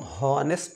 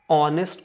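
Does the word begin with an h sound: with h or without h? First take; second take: with h; without h. First: The word starts with a clear h sound. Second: The word starts with a vowel, no h sound. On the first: The speaker calls it wrong. "हॉनेस्ट नहीं" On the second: The speaker calls it right. "ऑनेस्ट को हॉनेस्ट नहीं"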